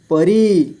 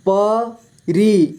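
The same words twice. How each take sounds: First: Said in the usual way. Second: परी split slowly into प, री; syllable by syllable. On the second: Shown as a demonstration. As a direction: stretch and separate प and री in परी. (परी को तोड़कर धीरे: प, री) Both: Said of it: "इस तरह से आपको".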